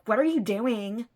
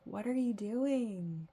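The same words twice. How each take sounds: First: It is asked with a bad attitude. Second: It is asked with curiosity.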